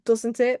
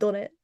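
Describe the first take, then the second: First: 'Doesn't' is said in full with all sounds. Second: 'Doesn't' is clipped, dropping sounds, like 'done'.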